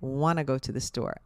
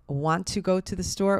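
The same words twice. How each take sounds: First: 'Want to' is run together as 'wanna'. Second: Both words of 'want to' are said in full. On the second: "want to"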